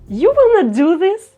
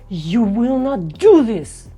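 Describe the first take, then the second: First: It sounds happy. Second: It sounds angry. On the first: "let's say it with a happy emotion" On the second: "Or the anger"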